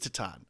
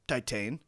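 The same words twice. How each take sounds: First: The word is said with a French-sounding pronunciation. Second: The word is said with an English-sounding pronunciation. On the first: The speaker calls it right. "It is Titane, is how it's pronounced" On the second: The speaker calls it wrong. "Videodrome guy was incorrect"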